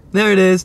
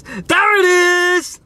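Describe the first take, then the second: First: Raised, emphatic discovery; a touch of excitement; pointing it out. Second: High, drawn-out screech; long, high mock-crying shout; mock wail. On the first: Real, not acted. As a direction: point out what you found. First spots the blood. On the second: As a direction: wail it in hammed-up horror. Repeats it as a wail.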